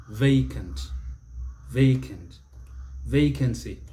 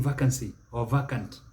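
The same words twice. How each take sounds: First: Vacant, vacancy with "VAY"; long AY opening vacant and vacancy; correct pronunciation. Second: Vacancy, vacant with a short A, "VACK"; mispronunciation. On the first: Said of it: "don't be saying vacancy or vacant". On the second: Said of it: "don't be saying". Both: Shown as a demonstration.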